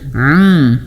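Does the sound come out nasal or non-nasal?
nasal. The sound is nasal, going through the nose. The speaker calls it wrong. "Ini masuk hidung"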